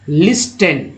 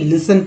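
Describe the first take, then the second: First: The t sound is pronounced in the middle. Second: The t sound is left silent in the middle. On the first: The speaker calls it wrong. "अक्सर लोग गलती लिस्टन पढ़ते" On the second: The speaker calls it right. "लिस्टन नहीं, लिसन पढ़ा जाता है"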